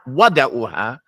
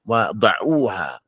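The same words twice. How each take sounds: First: The stress is on the first syllable. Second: The stress is on the second syllable. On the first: The speaker calls it wrong. "You can't put the number there and raise your voice on the wow" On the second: The speaker calls it right. "you have to put the emphasis on the word that comes after it"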